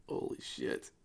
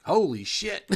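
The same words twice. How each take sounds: First: Hushed, voiceless exclamation; stunned, quiet. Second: High, loud astonished exclamation; loud amazement. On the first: Game master stunned by the huge map, hushed. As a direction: say it under your breath in shock. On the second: Game master stunned by the huge map, amazed outburst. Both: Real, not acted.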